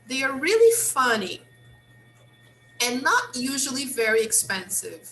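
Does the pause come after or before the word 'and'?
before. There is a pause before the word 'and'. "Let's try to put the pause before"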